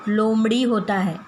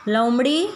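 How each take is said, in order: First: लोमड़ी said with a full ओ as "लोमड़ी"; teacher giving the right word लोमड़ी; correct pronunciation. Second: लोमड़ी read as "लमड़ी" without the ओ, rising; wrong word read out. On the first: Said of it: "सही शब्द है". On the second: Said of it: "नहीं, यह गलत शब्द है". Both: Shown as a demonstration.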